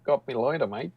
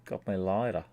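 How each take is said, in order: First: Light Aussie twang; Australian accent, lightly; mock Australian accent. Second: Put-on Australian accent. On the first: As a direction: toss it off like a casual Aussie. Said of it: "My Australian accent". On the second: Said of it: "he's doing an Australian accent".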